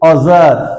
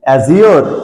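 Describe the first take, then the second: First: It has two syllables, like 'a-zhar'. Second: It has three syllables, like 'a-zee-or'. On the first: The speaker calls it right. "উচ্চারণটা অজার" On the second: The speaker calls it wrong. "এর উচ্চারণ অ্যাজিওর না"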